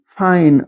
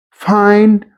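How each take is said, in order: First: "fine" said with no d at the end; Lower South fine. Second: Said in the usual way. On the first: Shown as a demonstration. Teacher shows "fine" with no final d. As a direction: drop the final d so "Find" becomes "fine". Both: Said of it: "Find would be fine only".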